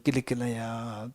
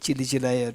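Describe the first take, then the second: First: The words begin with a 'k' sound. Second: The words begin with a 'ch' sound. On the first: The speaker calls it right. "he corrected" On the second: The speaker calls it wrong. "reciting the mantra in the wrong way"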